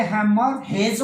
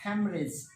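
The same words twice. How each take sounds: First: Wrong haemorrhage, slow, with second h sounded; haemorrhage as spelt. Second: Haemorrhage run together, softer, second h silent; correct haemorrhage. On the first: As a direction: split haemorrhage slowly and hit 'hage'. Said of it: "होना चाहिए". (हेमरेज का दूसरा 'ह' बोलकर गलत उच्चारण) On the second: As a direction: drop the middle h of haemorrhage. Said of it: "लेकिन है ये". (हेमरेज, दूसरा 'ह' silent) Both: Shown as a demonstration.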